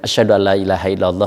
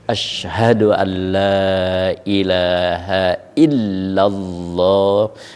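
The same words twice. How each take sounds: First: The doubled consonants are said short. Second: The doubled consonants are held long. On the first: The speaker calls it wrong. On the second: The speaker calls it right.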